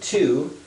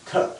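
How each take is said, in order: First: The word has a full vowel sound. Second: The vowel is reduced to a schwa.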